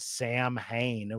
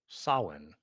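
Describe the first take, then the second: First: The name begins with a plain 'Sam' sound. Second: The name does not begin with 'Sam'. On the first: The speaker calls it wrong. "which is not how you fucking pronounce that band" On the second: The speaker calls it right. "it's definitely not Sam"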